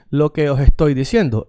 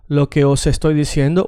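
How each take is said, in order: First: "os estoy" said "oh-hestoy", H in place of S; aspirated S accent. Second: "os estoy" with a clear S linking os to estoy; proper S. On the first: Teacher asking students to say it along, S aspirated. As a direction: breathe an H where "os" ends. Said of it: "the one with the H". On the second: Teacher showing the proper way, crisp linking S. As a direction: sound the S fully in "os estoy". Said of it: "the S this way". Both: Shown as a demonstration.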